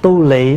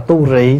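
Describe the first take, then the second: First: The second syllable starts with an L sound. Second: The second syllable starts with an R sound. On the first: This is the common northern reading. "ở ngoài Bắc là đa phần đọc chữ lị" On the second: This is the alternative reading. "thay vì mình đọc là tu rị"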